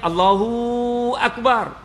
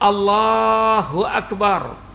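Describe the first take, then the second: First: The long vowel falls on another syllable. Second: The long vowel falls on the word 'Allah'. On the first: The speaker calls it wrong. "tak sah salat" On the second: The speaker calls it right. "Panjang kalimah itu pada Allah, bukan pada hu atau pada bar"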